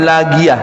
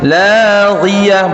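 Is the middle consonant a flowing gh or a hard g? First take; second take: hard g; flowing gh. First: The middle consonant is a hard, stopped g sound. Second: The middle consonant is a flowing, throaty gh sound. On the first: The speaker calls it wrong. "bukan lagiyah" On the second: The speaker calls it right. "Ada yang mengalir. Laghiyah"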